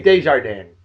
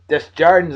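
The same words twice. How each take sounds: First: The name is said without an Americanized pronunciation. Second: The name is said with an Americanized pronunciation. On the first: The speaker calls it right. "Should be Desjardins" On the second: The speaker calls it wrong. "That's Americanized"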